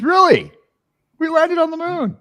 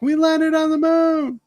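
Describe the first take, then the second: First: High, loud thrilled gasp; excited movie quote. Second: Much higher, slow and thrilled; excited. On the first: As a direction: act thrilled at the news, high. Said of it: "he looks at the thing and says". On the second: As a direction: announce it in high wonder. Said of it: "he got excited and he's like". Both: Retold or imitated.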